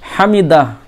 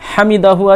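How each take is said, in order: First: The word ends on the h, no vowel. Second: The word ends with a final u vowel. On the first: "আপনি হামিদাহ পড়বেন" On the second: "হামিদাহু আছে"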